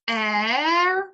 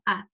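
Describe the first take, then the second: First: The vowel is said with its full value. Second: The vowel is said as a weak schwa. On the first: The speaker calls it wrong. "some students give it its full value" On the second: The speaker calls it right. "the weak form a"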